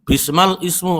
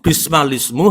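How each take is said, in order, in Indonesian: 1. Kata kedua dimulai terpisah dengan hamzah. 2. Kedua kata itu disambung tanpa hamzah. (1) "letterlek bacanya, tapi ini salah"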